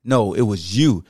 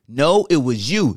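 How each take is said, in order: First: Low, slow second voice; a low, unhurried deep-voice retort. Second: Higher, straining voice; slow, strained higher comeback. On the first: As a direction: drop into the deep voice, slowly. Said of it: "The deep voice like this". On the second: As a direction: lift into the tight, strained voice. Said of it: "the voice is high pitched and sound like it's straining". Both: Shown as a demonstration.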